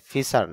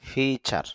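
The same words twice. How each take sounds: First: The first vowel is short. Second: The first vowel is long. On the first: The speaker calls it wrong. "ফিচার না" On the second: The speaker calls it right. "ফি একটু দীর্ঘ উচ্চারণ হবে"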